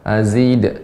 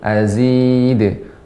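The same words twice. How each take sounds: First: The final d is held back by a glottal stop. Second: The final d is released with a quick bounce. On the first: The speaker calls it wrong. "jangan tertahan dengan hamzah" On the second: The speaker calls it right. "namun azid"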